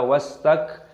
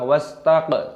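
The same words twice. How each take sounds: First: The k sound is stopped plainly. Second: The k sound is bounced with an echo. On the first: The speaker calls it right. "Kafnya sukun dimatikan, dibaca wastak" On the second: The speaker calls it wrong. "jangan dikol-kolah wastak, tidak boleh"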